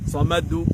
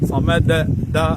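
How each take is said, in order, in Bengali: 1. শেষ ঝাঁকুনি u স্বরধ্বনির মতো শোনায়। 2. শেষ ঝাঁকুনি a স্বরধ্বনির মতো শোনায়। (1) "না" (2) "এরকমও হচ্ছে না"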